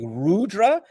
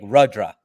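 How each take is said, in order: First: The first vowel is a long U sound. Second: The first vowel is a short U sound. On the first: "Is it a long U like Rudra" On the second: "or is it a short like Rudra?"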